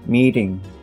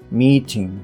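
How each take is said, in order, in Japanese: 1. meeting の t は、柔らかい d のような弾き音です。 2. meeting の t は、はっきりした t です。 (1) "meeting みたいな形の" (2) "meeting とは言わずに"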